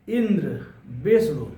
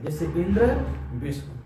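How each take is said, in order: First: Teacher stressing इंद्र and विष्णु to show बलाघात; stress on first syllable. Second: A gentle stress on इंद्र, विष्णु trailing off; lighter stress. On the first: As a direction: hit the first syllable of इंद्र and विष्णु, just before the half letter. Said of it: "जब किसी एक वर्ण पर बल दिया जाता है". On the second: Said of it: "जिस पर बल दिया जाएगा". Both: Shown as a demonstration.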